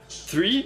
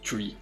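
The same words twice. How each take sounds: First: It begins with a th sound. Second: It begins with a t sound. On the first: "place your tongue uh, in the middle of your teeth" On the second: "I just say it three"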